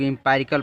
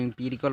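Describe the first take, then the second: First: एम्पायरिकल with a long "pie" in the middle; एम्पायरिकल read with an "eye" vowel; variant pronunciation. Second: एम्पिरिकल with "pi" as in pit, not pie; एम्पिरिकल read with an "ee" vowel; variant pronunciation. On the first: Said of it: "कुछ लोग एम्पायरिकल पढ़ते हैं". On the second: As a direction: say "im-PI-ri-kal" for एम्पिरिकल. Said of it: "कुछ लोग एम्पिरिकल पढ़ते हैं". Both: Shown as a demonstration.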